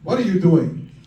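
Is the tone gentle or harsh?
harsh. It is said in a harsh, angry tone.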